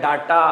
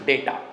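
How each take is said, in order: First: The first vowel is a long 'ah' sound. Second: The first vowel is an 'ay' sound. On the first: The speaker calls it wrong. "डाटा नहीं बोलते भैया" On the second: The speaker calls it right. "अब डाटा नहीं, डेटा"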